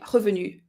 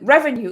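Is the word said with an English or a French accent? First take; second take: French; English. First: It is pronounced with a French accent. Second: It is pronounced with an English accent. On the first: The speaker calls it wrong. "you memorize it with a French accent" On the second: The speaker calls it right. "it sounds very different than revenue"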